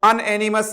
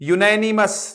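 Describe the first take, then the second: First: The word begins with an 'an' sound. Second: The word begins with a 'yoo' sound. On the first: The speaker calls it wrong. "अनएनिमस नहीं है" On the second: The speaker calls it right. "यूनैनिमस होगा इसका pronunciation"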